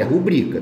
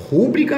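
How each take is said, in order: First: Rubrica said as ru-BRI-ca; correct stress. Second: Rúbrica said as RÚ-bri-ca, higher and louder; wrong stress. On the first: Teacher correcting the student, rubrica stressed on BRI. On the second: Teacher rejecting the wrong form, Rúbrica stressed on RÚ. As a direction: hit the first syllable of Rúbrica. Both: Shown as a demonstration. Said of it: "é rubrica".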